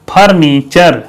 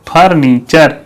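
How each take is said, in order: Both takes have the same delivery.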